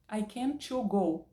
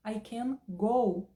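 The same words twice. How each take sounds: First: I can to go said slowly, stressing can and the extra to; slow wrong example. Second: I can go said very slowly and deliberately, each word separate; slow correct model. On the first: Teacher showing students a common grammar error. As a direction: spell out the mistake slowly. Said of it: "Totalmente errado". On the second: Teacher modelling the correct sentence for students. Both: Shown as a demonstration.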